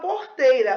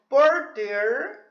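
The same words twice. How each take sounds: First: The word is said in a Rio accent. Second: The word is said in an inland rural accent. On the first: "A gente fala porteira" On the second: "A pessoa que, que mora em Goiás, Mato Grosso, fala porteira"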